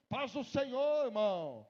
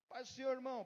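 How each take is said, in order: First: It is said in a mocking, sarcastic tone. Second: It is said as a sincere, natural greeting.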